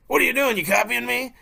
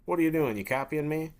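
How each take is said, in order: First: High, loud mocking echo; louder emphatic mimicking. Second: Slightly raised, puzzled challenge; mildly agitated friend. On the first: Hunter copies an agitated friend's complaint, loud exaggerated mimicry. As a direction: parrot the complaint back much louder and higher. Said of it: "a little bit louder, a little bit more emphatic". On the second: Acted. Friend challenges the person copying them, mild irritation. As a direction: question the copycat with mild annoyance. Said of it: "think about how agitated you would get".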